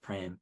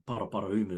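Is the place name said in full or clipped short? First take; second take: clipped; full. First: The name is clipped to one short syllable. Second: All syllables of the name are said fully. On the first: The speaker calls it wrong. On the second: The speaker calls it right.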